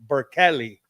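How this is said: It is said with every letter sounded out.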